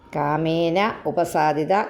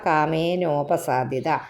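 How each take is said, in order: First: The two words are said separately, unmerged. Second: The two words merge into one with a vowel.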